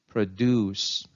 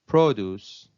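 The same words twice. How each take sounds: First: The stress is on the second syllable. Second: The stress is on the first syllable. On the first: It is used as a verb. "Verbs usually take a stress on the second syllable" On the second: It is used as a noun. "nouns take a stress on the first syllable"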